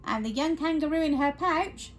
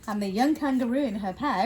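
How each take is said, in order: First: Lightly voiced kangaroo, slightly raised; character voice by mistake. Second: Quicker, ordinary storytelling voice; narrator's voice. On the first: Reader narrating in wrong voice, light kangaroo character. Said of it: "wrong voice". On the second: Reader correcting to narrator's voice, brisk storytelling. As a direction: drop the character and narrate briskly. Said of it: "That's better, narrator's voice". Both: Shown as a demonstration.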